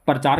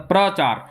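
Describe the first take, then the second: First: प्रचार said as परचार with a vowel split into the cluster; lazy, easy परचार; shortened pronunciation. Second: Said in the usual way. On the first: Shown as a demonstration. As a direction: break प्रचार into पर-चार. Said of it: "लोग short में बोलते हैं प्रचार". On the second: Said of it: "प्रचार बोलने के लिए थोड़ा सा श्रम".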